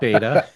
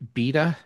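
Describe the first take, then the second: First: The word is said with an American pronunciation. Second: The word is said with a British pronunciation. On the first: "In the United States" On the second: "cute British pronunciations"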